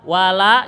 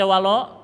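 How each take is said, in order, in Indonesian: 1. Vokal akhirnya adalah 'a' yang jelas dan terbuka. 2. Vokal akhirnya terdengar gelap, seperti 'o'.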